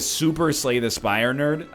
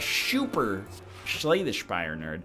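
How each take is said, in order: First: It is said in the speaker's normal voice. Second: It is said in a lisping, retainer-like voice.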